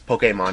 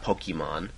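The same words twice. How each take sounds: First: The e gets its accented vowel sound. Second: The e does not get its accented sound. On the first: The speaker calls it right. "Same accent over Pokemon... that's why it's Pokemon" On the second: The speaker calls it wrong. "not Pokemon"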